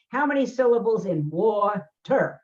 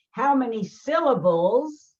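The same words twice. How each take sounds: First: Said in the usual way. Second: Slow quizzing question. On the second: Retold or imitated. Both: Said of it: "he has to come home and he say".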